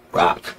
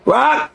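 First: Softly spoken one-word reply; low answer. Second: High, carrying name call; yelling through cells. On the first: Cellmate tells his name, imitated soft reply. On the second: Inmate relays the cellmate's name, high imitated yell. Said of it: "we would yell through the cell". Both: Retold or imitated.

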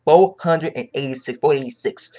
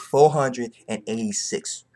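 First: Hyped announcement of the chapter; hyped repeat. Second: Slow, deliberate chapter number; savoring the chapter number; slow announcement. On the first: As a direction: shout the number out to the viewers. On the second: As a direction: spell out the number slowly. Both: Real, not acted.

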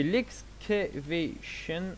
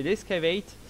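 First: Slow, halting English "excavation" in a French accent; attempted English accent. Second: "escavate" as English "ess-ka-veït", French-accented. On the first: Viewers hear a command name in botched English, French-accented. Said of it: "Désolé pour mon, euh, accent". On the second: Streamer corrects a command name for viewers, French-accented English. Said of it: "désolé pour mon accent qui doit certainement être". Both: Real, not acted.

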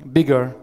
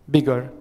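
The two takes are said the same way.

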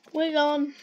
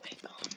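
First: Said in the usual way. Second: Whispered. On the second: Real, not acted.

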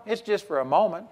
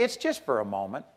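First: Said in the usual way. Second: Dropped low and soft, hushed; hushed aside. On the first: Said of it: "But I've got this problem". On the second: Shown as a demonstration. Preacher softly shows how to shrug off criticism. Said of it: "just say".

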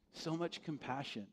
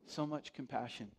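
The two takes are said the same way.

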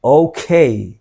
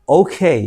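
First: Flat Bangla-style oke; wrong okay. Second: ওকে with a gliding "ou" and a lift; correct okay. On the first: Teacher showing the wrong ওকে. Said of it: "আজকে থেকে আমরা কখনো আর বলবো না". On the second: Teacher modeling the right ওকে. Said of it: "এটা হবে". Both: Shown as a demonstration.

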